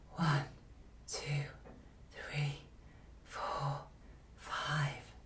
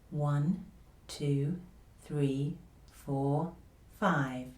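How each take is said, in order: First: The voice is quiet with lots of air. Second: The voice is quiet, easy and gentle. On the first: The speaker calls it wrong. "also a quiet voice, but one that is too breathy, has too much air" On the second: The speaker calls it right. "confidential voice again. Quiet, easy, gentle voice"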